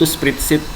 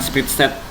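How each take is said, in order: First: The last syllable is said as 'sheet'. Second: The last syllable is said as 'set'. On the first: The speaker calls it right. "makanya namanya kalau di Google itu spreadsheet" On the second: The speaker calls it wrong. "bukan spreadsheet"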